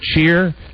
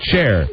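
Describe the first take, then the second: First: The vowel sounds like the word ear. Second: The vowel sounds like the word air. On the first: The speaker calls it wrong. "You don't say" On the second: The speaker calls it right. "You say chair"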